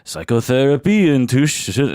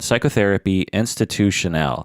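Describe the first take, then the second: First: It is said in an exaggerated French accent. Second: It is said in the speaker's ordinary accent.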